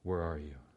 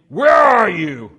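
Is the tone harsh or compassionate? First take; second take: compassionate; harsh. First: It is said in a gentle, caring tone. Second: It is said in a harsh, demanding tone.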